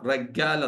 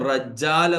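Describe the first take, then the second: First: The doubled middle consonant is a g sound. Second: The doubled middle consonant is a j sound. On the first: "Egyptians പറയാ റഗ്ഗാൽ എന്നാവും" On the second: "അതാണ് റജ്ജാൽ എന്നത്"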